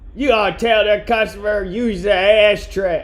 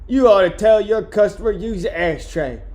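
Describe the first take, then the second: First: It is said attempting a Boston accent. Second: It is said in the speaker's normal accent.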